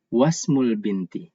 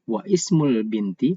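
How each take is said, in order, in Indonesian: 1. Bunyi i setelah wa dihilangkan. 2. Bunyi i setelah wa diucapkan. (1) "tapi wasmul binti" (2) "Jadi tidak dibaca wa ismul binti"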